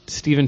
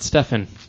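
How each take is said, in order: First: The first vowel is long, as in 'see'. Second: The first vowel is short, as in 'set'. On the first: The speaker calls it right. "Stephen Strange" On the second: The speaker calls it wrong. "not Stefan"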